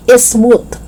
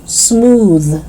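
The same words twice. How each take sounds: First: "smooth" as "is-smoot"; extra vowel. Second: "smooth" starting on S, buzzing TH; voiced TH. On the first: Teacher showing learners the mistake, "smooth" as "ismoot". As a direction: add a vowel before S and end "smooth" on T. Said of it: "it's not smooth". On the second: Teacher correcting learners, "smooth" with voiced TH. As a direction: hum through the end of "smooth". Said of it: "it's smooth". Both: Shown as a demonstration.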